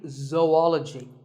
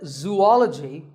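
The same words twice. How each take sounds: First: It begins with a 'zo' sound. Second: It begins with a long 'zoo' sound. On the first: The speaker calls it right. "This is actually zoology. Zo and ology" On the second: The speaker calls it wrong. "If you said zoology, it's actually wrong"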